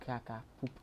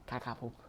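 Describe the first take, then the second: No difference in how they are said.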